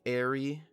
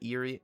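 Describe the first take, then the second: First: The name begins with an 'air' sound. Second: The name begins with an 'ear' sound. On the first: The speaker calls it right. "Airy, not eerie" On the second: The speaker calls it wrong. "not eerie"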